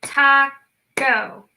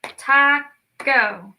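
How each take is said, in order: First: Taco clapped again in two beats, Ta-co; clapped syllables. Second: Taco split into two clapped beats, Ta-co; clapped syllables. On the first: Teacher repeating the taco clap. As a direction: clap Taco once more. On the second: Teacher clapping out taco with kids. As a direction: clap out Taco. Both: Shown as a demonstration. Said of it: "Let's clap this one out".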